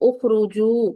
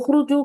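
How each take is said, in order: First: The final vowel is drawn out long. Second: The final vowel is cut short. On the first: It is the intended plural command. The speaker calls it right. "थोड़ा लंबा करके पढ़ना है" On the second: It becomes the wrong verb form. The speaker calls it wrong. "उखरुजू कहेंगी तो वो तो अ, सीगा ही गलत बन जाएगा"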